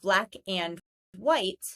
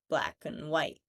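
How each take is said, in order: First: The word 'and' is said in full. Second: The word 'and' is reduced to 'un'. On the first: "instead of" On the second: "you'll hear"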